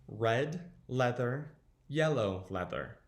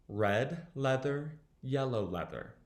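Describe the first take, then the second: Both takes have the same delivery.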